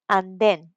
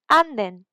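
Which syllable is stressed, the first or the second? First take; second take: second; first. First: The stress is on the second syllable. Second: The stress is on the first syllable. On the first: "but because it's in the E's" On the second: "if I had, for example, these in the A, it would be"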